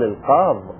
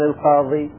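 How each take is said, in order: First: The word ends in a consonant, final long i dropped. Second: The word ends in a long i vowel.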